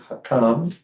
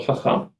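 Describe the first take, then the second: First: The middle consonant is a hard k sound. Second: The middle consonant is a throaty ch sound. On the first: The speaker calls it wrong. "with the dagesh, it would have been hakam" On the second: The speaker calls it right. "Without it, it's the same as the chet"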